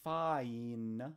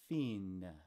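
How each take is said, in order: First: The vowel is an 'eye' sound. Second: The vowel is an 'ee' sound. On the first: This is the modern pronunciation. "the last one is not fine" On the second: This is the older Middle English pronunciation. "it's fin. Those are all Middle English"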